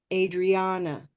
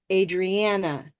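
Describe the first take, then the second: First: Adriana with the middle vowel ah like olive; olive vowel model. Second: Adriana slow, middle vowel like black; black vowel model. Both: Shown as a demonstration. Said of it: "I'm going to model both of these".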